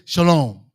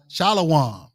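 First: The word is said with two syllables. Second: The word is said with three syllables. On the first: This is how most Hebrew dialects say it. "most of the Hebrew dialects. You say they'll say Shalom" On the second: This is the holy-language form with the vowels restored. "You put the extra vowels back in"

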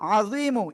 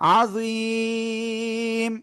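First: The word ends with a short final vowel. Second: The word stops on the consonant, long vowel before. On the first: The speaker calls it wrong. "এটা না পড়ে" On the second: The speaker calls it right. "পড়বো আজুইম"

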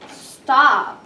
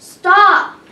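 First: It is said weakly, without force. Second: It is said loudly and forcefully.

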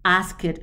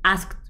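First: The ending is an extra syllable after ask. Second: The ending is a single t sound. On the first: The speaker calls it wrong. "is not something is like ask it. No" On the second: The speaker calls it right. "some of the verb is pronounced like t"

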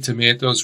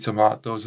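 First: It is said with an American accent. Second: It is said with a British accent.

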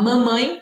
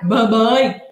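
First: The m sounds are clearly nasal. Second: The m sounds come out like b sounds. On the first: "ao invés de falar mamãe" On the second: "A gente fica com o nariz entupido e não consegue falar a letra M"

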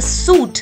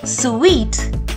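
First: The word is said like 'soot', with no 'w' sound. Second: The word is said like 'sweet', with a 'w' sound. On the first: The speaker calls it wrong. "It is not a suit" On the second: The speaker calls it right. "it's a suite"

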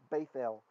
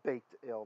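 First: The consonant after the vowel is a th sound. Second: The consonant after the vowel is a t sound. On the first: This is closer to the ancient pronunciation. "to make it a th, a th sound" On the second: This is how it would be read with a dot. "if it had a dot, it'd be baked ale"

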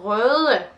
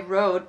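First: The word is pronounced with Danish sounds. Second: The word is pronounced with English sounds. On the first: "actually it's a Danish word" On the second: "I'm just gonna say it the English way"

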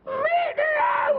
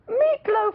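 First: It is said in a squawky, parrot-like voice. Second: It is said in a plain, ordinary voice.

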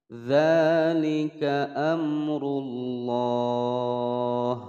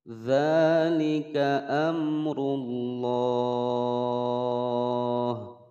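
No difference in how they are said.

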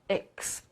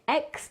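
First: The syllable has a short, reduced vowel. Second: The syllable has a full, clear vowel. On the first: The speaker calls it right. "tylko x" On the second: The speaker calls it wrong. "Nie ex"

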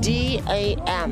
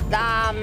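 First: The name is spelled out as English letters. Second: The name is said as a single word. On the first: The name is written with dots. "Có dấu chấm thì ... đọc theo kiểu tiếng Anh đi" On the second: The name is written without dots. "nếu như bình thường mà không có dấu chấm ở đây thì mình sẽ đọc là Dam"

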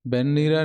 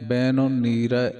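First: The two words are run together. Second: The two words are kept separate, with full n. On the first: The speaker calls it wrong. "ਬਿਨ ਨੀਰੈ ਨਹੀਂ ਕਹਿਣਾ" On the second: The speaker calls it right. "ਬਿਨ ਦਾ ਨੰਨਾ ਪੂਰਾ ਪੜ੍ਹਨਾ ਹੈ, ਦੋਏ ਸ਼ਬਦ ਵੱਖ ਵੱਖ ਪੜ੍ਹਨੇ ਹੈ"

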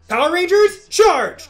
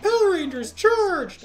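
First: It is said as a strong call-out. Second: It is said as a weak call-out.

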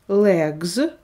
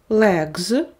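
Both takes have the same delivery.

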